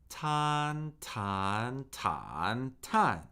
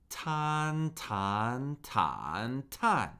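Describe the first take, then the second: Both takes have the same delivery.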